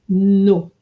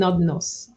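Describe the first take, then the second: First: The final s is silent. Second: The final s is pronounced. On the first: The speaker calls it right. "The S is silent" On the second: The speaker calls it wrong.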